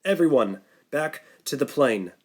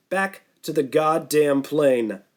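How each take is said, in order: First: Calm. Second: Angry mocking repeat. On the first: Acted. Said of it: "calmly this time". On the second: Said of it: "Sam exploded".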